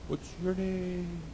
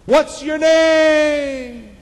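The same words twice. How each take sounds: First: Soft, slow, higher echo; distant echo. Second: Very high, loud, drawn-out holler; screamed out. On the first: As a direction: echo it back from far away. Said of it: "about the echo". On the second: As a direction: shout it slowly across the wilderness. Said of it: "He screamed out". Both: Acted.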